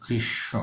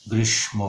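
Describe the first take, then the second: First: গ্রীষ্ম with a retroflex ষ, soft and near whispered; correct pronunciation. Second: গ্রীষ্ম said the common wrong way; wrong pronunciation. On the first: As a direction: say the correct form gently. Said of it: "আসলে হবে". (শুদ্ধ উচ্চারণ) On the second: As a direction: show the error plainly. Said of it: "ভুল উচ্চারণ". (ভুল উচ্চারণ) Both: Shown as a demonstration.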